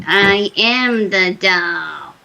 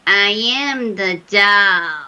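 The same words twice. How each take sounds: First: Put-on slow, eerie kid-and-grandma voice; wicked doll voice. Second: Put-on slow, eerie blend of little kid and old grandma; wicked doll voice. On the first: Retelling the haunting to the panel, doll's slow wicked voice. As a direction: stretch each word like a wicked doll. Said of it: "it was really wicked". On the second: Retelling a ghost hunt, imitating the doll's slow wicked voice. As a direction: drag it out like a wicked possessed doll. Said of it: "I'll try to demonstrate".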